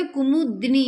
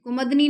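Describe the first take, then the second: First: कुमुदनी as "ku-moo, di-ni"; correct KU-MU-DI-NI. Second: कुमुदनी as "ku-mad-ni"; mispronounced KUMUDINI. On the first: Teacher correcting the word, कुमुदनी as "ku-mu-di-ni". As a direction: sound u after म and i after द in कुमुदनी. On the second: Teacher loudly showing the mistake, कुमुदनी as "ku-mad-ni". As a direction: drop the i after द in कुमुदनी. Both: Shown as a demonstration. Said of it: "कुमुदनी नहीं होता".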